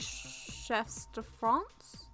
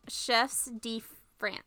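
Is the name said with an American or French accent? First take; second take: French; American. First: The name is said with a French accent. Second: The name is said with an American accent. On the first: "the proper way to say it's probably" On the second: "the American way is"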